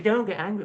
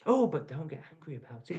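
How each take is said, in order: First: High mock-soothing sarcasm; sarcastic mimicry. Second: Soft mock-soothing sarcasm; sarcastic mimicry. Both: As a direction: parrot them with a sneer. Mocking calls to stay calm.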